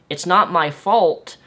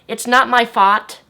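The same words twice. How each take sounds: First: The vowel in fault is said clearly. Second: The vowel in fault is distorted toward fart. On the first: The speaker calls it right. "when I would say the word" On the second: The speaker calls it wrong. "I would say"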